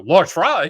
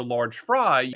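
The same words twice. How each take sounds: First: Louder, incredulous echo of the order; shocked father. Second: Said in the usual way. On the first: Retold or imitated. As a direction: bark it back like a stunned dad.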